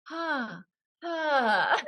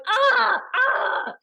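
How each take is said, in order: First: High, breath-led pretty sighs of pain; mock glamorous "ah" of pain; beauty pain. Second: Big, loud, high wails of pain; hammed-up "aah" of pain; dramatic pain cries. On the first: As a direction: attempt elegant agony, held back. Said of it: "Beauty pain, beauty pain". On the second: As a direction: overact agony with drawn-out cries. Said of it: "I'm doing this dramatic thing".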